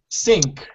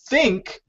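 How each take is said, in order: First: It begins with an s sound. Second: It begins with a th sound. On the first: The speaker calls it wrong. "they say sink with an S" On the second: The speaker calls it right. "instead of saying think"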